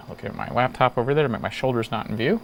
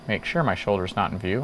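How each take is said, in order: First: Said in the usual way. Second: Sure put back into the line; corrected reading. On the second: Real, not acted. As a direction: read again with "sure" included. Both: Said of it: "I think I just skipped the word sure".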